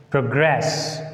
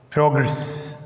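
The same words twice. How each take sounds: First: ProGRESS, stressed on the second syllable; verb stress on second syllable. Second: PROgress, stressed on the first syllable; noun stress on first syllable. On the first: Teacher demonstrating the verb, stress on second syllable. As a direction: lean on GRESS in Progress. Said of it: "a verb takes on the second syllable". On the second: Teacher demonstrating the noun, stress on first syllable. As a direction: punch the PRO in Progress. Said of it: "a noun takes the stress on the first syllable". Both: Shown as a demonstration.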